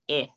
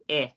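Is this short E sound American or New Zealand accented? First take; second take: New Zealand; New Zealand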